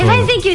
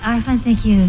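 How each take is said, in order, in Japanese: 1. 明るく、元気いっぱいな感じで言っています。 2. だるそうに、元気のない感じで言っています。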